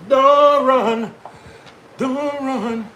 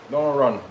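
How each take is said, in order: First: High-pitched sing-song call after a pet; high, teasing don't run. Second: Said in the usual way. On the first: Real, not acted. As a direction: coax it back in a high voice. Calling to a running animal.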